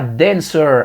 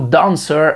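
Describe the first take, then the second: First: The word is said with an American accent. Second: The word is said with a British accent. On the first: The speaker calls it wrong. "Dancer à l'américaine" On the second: The speaker calls it right. "Dancer à l'anglaise"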